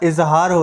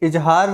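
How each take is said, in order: First: The second consonant is a z sound. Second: The second consonant is a j sound. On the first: The speaker calls it right. "इजहार होता है" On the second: The speaker calls it wrong. "नुक्ता के बिना इजहार हो गया, जो गलत है"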